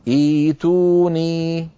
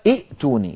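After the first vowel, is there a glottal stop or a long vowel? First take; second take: long vowel; glottal stop. First: The second glottal stop becomes a long vowel. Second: Two glottal stops are pronounced in a row. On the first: The speaker calls it right. "بل يقولون كما نرى في الوضعية الأخيرة والثالثة" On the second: The speaker calls it wrong. "المرحلة الأولى ائتوني، لكن العرب لا تقول ائتوني"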